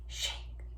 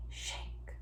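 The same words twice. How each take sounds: The two takes are said the same way.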